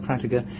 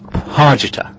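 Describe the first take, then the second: First: The r comes right after the first consonant. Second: The r comes after the first vowel. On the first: The speaker calls it wrong. "No, not Pratiger" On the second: The speaker calls it right.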